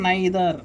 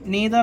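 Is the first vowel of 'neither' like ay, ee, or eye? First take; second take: eye; ee. First: The first vowel sounds like 'eye'. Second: The first vowel sounds like 'ee'. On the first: "లేకపోతే నైదర్ అనాలి" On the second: "నీదర్ నీదర్ అనాలి"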